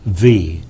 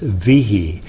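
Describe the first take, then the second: First: The name is said as one syllable. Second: The name is said as two syllables. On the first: This is how one side of the family says it. The speaker calls it right. "the correct pronunciation is with one syllable" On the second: This is how the other side of the family says it. The speaker calls it wrong. "this other misguided side of the family"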